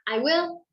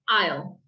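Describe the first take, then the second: First: It is said as two full separate words. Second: It is said as one short contracted syllable. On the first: "I will turns into I'll" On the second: "I will turns into I'll"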